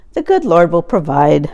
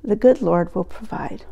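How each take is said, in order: First: Said in the usual way. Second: Softer, tired delivery of the phrase; an aging father gently easing his daughter's worry; weary tone. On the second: Retold or imitated. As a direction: let the fatigue sink into the words. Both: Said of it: "in a weary tone".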